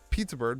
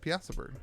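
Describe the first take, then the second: First: The first word sounds like 'pizza'. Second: The first word sounds like 'piazza'. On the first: "I like Pizza Bird better" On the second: "better than Piazza Bird"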